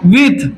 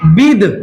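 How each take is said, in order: First: The word ends with a th sound. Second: The word ends with a d sound. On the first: "कभी कभी इसको विथ भी बोला जाता है" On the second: "अपने यहाँ जो प्रोनाउंसिएशन होता है विद भी बोल देते हैं"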